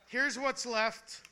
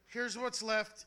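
First: Slow, drawn out announcement. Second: Said in the usual way. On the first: Shown as a demonstration. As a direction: stretch the words out slowly.

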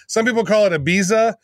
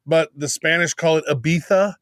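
First: Ibiza said eye-BEE-za with an English z; English pronunciation. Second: Ibiza said ee-BEE-tha with a lisped th; Spanish pronunciation. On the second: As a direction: say Ibiza the Castilian way with a th. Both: Shown as a demonstration.

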